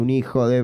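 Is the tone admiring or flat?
admiring. It is said with an admiring, playful tone. The person is clever and sly. "no está diciendo que la madre ejerce esa antigua profesión, sino que es picarón"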